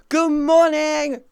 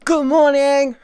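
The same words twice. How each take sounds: First: High, slow, drawn-out good morning; stretched good morning. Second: High, loud sing-song good morning; cheery greeting. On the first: Streamer greeting chat again, slow and high. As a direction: stretch it long and high like a yawn-song. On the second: Streamer greeting chat, high and loud. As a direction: chirp it up bright to wake the room. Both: Real, not acted.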